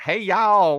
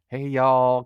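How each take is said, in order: First: It has a thick, exaggerated Southern accent. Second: It has a soft, light Southern accent.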